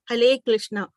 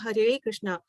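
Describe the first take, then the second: First: It is said in a Chinese accent without R. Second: It is said in a Bengali accent, vowel changed. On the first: "the Chinese they cannot pronounce R, so they say" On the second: "the A pronunciation is different there, so they call"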